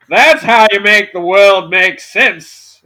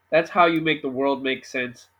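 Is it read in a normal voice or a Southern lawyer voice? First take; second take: Southern lawyer; normal voice. First: It is read in a Southern lawyer voice. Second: It is read in his normal voice.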